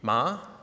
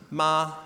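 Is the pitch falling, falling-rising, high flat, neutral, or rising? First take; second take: rising; high flat. First: The pitch rises from middle to high. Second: The pitch stays high and level. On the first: "The second tone is a rising tone" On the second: "The first tone is high and flat"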